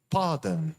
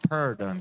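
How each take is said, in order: First: The R is not curled, British style. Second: The R is curled back, American style.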